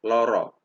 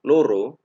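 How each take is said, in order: First: The o vowels are slightly open. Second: The o vowels are round and closed. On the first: It means sick. "jika O-nya sedikit menganga" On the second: It means two. "jika kita lafadzkan O-nya bulat"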